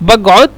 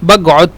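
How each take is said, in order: First: The qaf is said as a g sound. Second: The qaf is said as a g sound.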